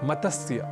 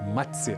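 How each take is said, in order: First: A vowel is inserted between the middle consonants. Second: The middle consonants are joined without any vowel. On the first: The speaker calls it wrong. "अक्सर हम इस शब्द का गलत उच्चारण कर बैठते हैं" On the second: The speaker calls it right. "हमें इसका उच्चारण करना चाहिए मत्स्य"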